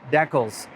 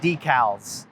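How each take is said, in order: First: It is said in a Canadian accent. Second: It is said in an American accent.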